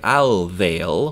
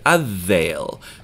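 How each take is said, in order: First: The l sound is clearly pronounced. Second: The l blends into the following consonant. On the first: The speaker calls it wrong. "we're not going to say al veil, because that's a little harder" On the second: The speaker calls it right. "We're going to say a veil, because it's easier"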